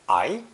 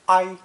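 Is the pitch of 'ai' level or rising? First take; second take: rising; level. First: The syllable is said with a rising pitch. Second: The syllable is said on a high level pitch. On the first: It means to suffer a result. "second tone I" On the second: It means to come up close to something. "first tone I"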